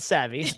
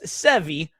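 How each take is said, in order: First: The first vowel sounds like the a in cat. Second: The first vowel sounds like the e in bed. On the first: The speaker calls it wrong. "not Savvy" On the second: The speaker calls it right. "It's Sevy"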